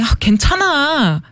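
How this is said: It is said angrily, like an upset person.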